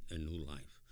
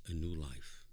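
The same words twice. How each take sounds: The two takes are said the same way.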